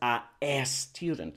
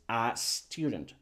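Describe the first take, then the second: First: An extra e vowel comes before student. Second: The s links straight onto the article. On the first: The speaker calls it wrong. "No es a a student" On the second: The speaker calls it right. "es a student"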